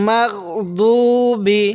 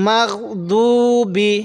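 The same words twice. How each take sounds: No difference in how they are said.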